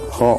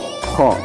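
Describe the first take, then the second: First: The kh sound is light, with little throat friction. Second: The kh sound is harsh, scraped from the throat. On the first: The speaker calls it wrong. "cuman dibaca kha" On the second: The speaker calls it right. "seakan-akan kita akan mengeluarkan dahak itu"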